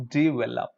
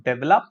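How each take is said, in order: First: "develop" as di-vel-op; correct develop. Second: "develop" as dev-el-op; wrong develop. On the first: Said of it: "Not develop". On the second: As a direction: say "develop" with deh. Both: Shown as a demonstration.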